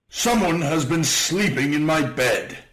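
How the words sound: It is said in a great big voice.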